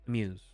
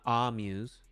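First: The first vowel is reduced and very short. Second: The first vowel is full and drawn out. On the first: The speaker calls it right. "Very short" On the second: The speaker calls it wrong. "not amuse"

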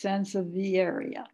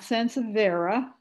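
First: The name ends in a longer 'vieria' sound. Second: The name ends in a short 'vera' sound. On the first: The speaker calls it right. "it's sansevieria" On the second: The speaker calls it wrong. "not sansevera"

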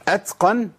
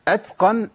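The two takes are said the same way.

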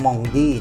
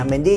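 First: The first syllable sounds like nasal 'mong'. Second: The first syllable sounds like plain 'men'. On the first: This is the original French way of saying it. "ถ้าจะออกเสียงว่าบองชแมงเมนดี้มันต้องออกเสียงว่ามองดี้" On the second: This is how local commentators usually say it. "เขาอ่านเมนดี้ก็เมนดี้นะ"

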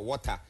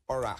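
First: The word is said in a British accent. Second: The word is said in an American accent. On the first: "if the British might say water" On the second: "American might say"

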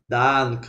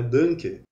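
First: The first vowel is open and not nasalized. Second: The first vowel is nasalized before the n. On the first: The speaker calls it right. "Um pouco mais aberto" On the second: The speaker calls it wrong. "a gente em português fala muito errado"

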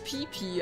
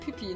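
First: The name is said slowly and carefully. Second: The name is said quickly and run together. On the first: This is the actual form of the name. "eigentlich Pipi" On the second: This is how the name comes out in fast speech. "schnell ist es halt Pipi"

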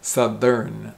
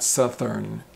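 First: The 'th' is voiced, as in 'there'. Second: The 'th' is voiceless, as in 'south'. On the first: The speaker calls it right. "it's a th, thir, th sound, southern" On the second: The speaker calls it wrong. "not southern, thern"

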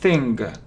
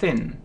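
First: The word ends with an audible hard g. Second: The word ends without any hard g sound. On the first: The speaker calls it wrong. "многие говорят thing, thing. Но это не G" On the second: The speaker calls it right. "это не произносится, просто thin"

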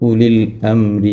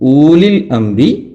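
First: The first vowel is kept short. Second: The first vowel is drawn out long. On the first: The speaker calls it right. "ഉലിൽ അംരി മിൻകും എന്ന് വേണം ഓതുവാൻ" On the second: The speaker calls it wrong. "ഊലിൽ അംരി ആവരുത്"

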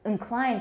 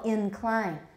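First: The first vowel is reduced to a schwa. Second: The first vowel is full and clear. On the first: The speaker calls it wrong. "Incline sounds odd. I don't think I say that" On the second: The speaker calls it right. "It's a full vowel, incline"

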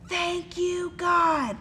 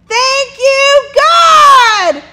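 First: It is said very quietly. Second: It is said very loudly.

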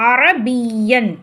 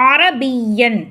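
No difference in how they are said.

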